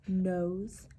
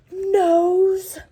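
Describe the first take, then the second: First: Said in the usual way. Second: Nose said high, loud and drawn out; punched reveal. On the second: A narrator's reading. Narrator revealing the mouse meets the lion, loud. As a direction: land nose as a big reveal.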